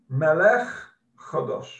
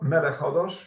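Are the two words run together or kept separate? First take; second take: separate; run together. First: The words are said carefully and kept apart. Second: The words are said quickly and run together. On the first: The speaker calls it right. "It's Vayokom Melech Chodosh" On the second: The speaker calls it wrong. "It's not Melech Chodosh"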